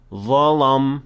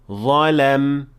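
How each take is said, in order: First: The lam sounds heavy, with a full mouth. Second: The lam sounds light, with an empty mouth. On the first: The speaker calls it wrong. "it can cause the same problem" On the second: The speaker calls it right. "it should be"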